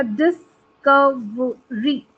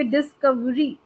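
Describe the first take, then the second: First: डिस्कवरी slowly as डिस-क-व-री; syllable by syllable. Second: डिस्कवरी as डिस-कव-री, व joined to क; run-together syllables. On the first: Teacher showing four syllables in a word, syllable by syllable. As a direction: separate all four beats of डिस्कवरी. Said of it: "four syllables आ रहे हैं". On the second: Teacher showing how students might say it, syllables run together. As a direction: say डिस्कवरी in three beats, less split. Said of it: "ऐसे भी बोलोगे". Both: Shown as a demonstration.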